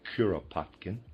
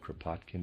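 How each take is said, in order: First: A vowel sound separates the K and R. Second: The K and R run together without a vowel. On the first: The speaker calls it right. "It's Kuropatkin" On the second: The speaker calls it wrong. "I pronounced it Kropotkin before, ... that's incorrect"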